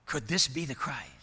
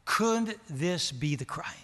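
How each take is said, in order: First: Said in the usual way. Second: Slow, gentle, non-aggressive asking; respectful question. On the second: Retold or imitated. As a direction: ask it lovingly, slowly, without pressure. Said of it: "she asked the question very respectfully ... non-aggressively, lovingly".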